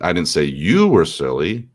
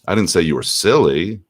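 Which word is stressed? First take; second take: you; silly. First: The stress is on "you". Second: The stress is on "silly".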